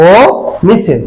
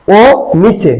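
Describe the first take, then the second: No difference in how they are said.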